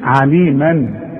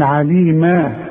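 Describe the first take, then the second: First: The word ends with a final -an nunation sound. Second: The word ends with a long a sound. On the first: "والفتحتين عليما" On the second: "برضو اذا وقفت تقول عليما"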